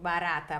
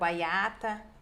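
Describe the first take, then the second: First: The middle consonant is a tapped r. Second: The middle consonant is a y glide. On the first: This is the adult form of the word. "o R" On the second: This is how a young child says it. "eles fazem"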